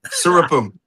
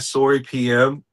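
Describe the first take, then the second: First: The whole name runs together as one word. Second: The final letters are spoken separately. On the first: The speaker calls it wrong. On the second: The speaker calls it right.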